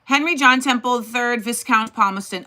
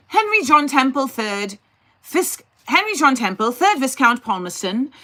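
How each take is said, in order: First: Said in the usual way. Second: Lightly put-on British accent, a bit higher. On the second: Shown as a demonstration. Streamer reading Palmerston's name to chat in a mock British accent. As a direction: try a mock posh British accent on Henry John Temple. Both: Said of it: "I'll read it in a British accent".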